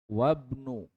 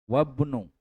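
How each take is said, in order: No difference in how they are said.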